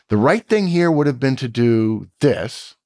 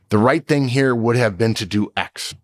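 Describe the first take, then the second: First: It ends with an unfinished, comma-like tone. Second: It ends with a final falling tone.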